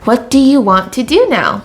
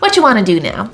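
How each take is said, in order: First: Every word is said separately in full. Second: The words are squeezed tightly into fewer syllables. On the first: "taking the long form" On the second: "compressing it really tightly"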